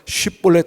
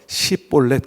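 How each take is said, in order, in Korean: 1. 이 단어는 sh 소리로 시작해요. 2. 이 단어는 s 소리로 시작해요. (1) "십볼렛 하지 못하고" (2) "그러면 너 에브라임 사람이지"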